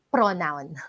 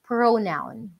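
First: The first vowel is short. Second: The first vowel is long. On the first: The speaker calls it wrong. "it's not pronounced as pronoun" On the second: The speaker calls it right. "The O there is long"

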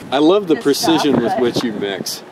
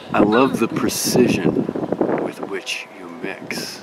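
First: The sentence is said at a normal pace. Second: The sentence is said at a slow, drawn-out pace.

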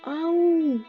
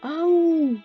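No difference in how they are said.

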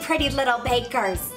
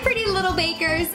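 First: It is said in a put-on Irish accent. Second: It is said in a natural American accent. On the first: "that was terrible" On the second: "I'm gonna stick to my American accent"

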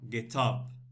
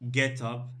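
First: The stress falls on the word up. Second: The stress falls on the word get. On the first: The speaker calls it right. "so the stress is here on home, bed, up" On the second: The speaker calls it wrong. "you don't say get up"

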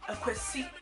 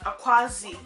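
First: The last syllable begins with an s sound. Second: The last syllable begins with a z sound. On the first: The speaker calls it right. "It's AKWASI, not ZI" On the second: The speaker calls it wrong. "not Akwazi. You don't see no Z there"

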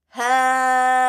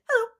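First: It is said slowly. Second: It is said fast.

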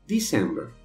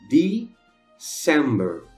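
First: The word is said at normal speed. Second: The word is said slowly. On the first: "a outra normal" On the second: "uma vez devagarinho"

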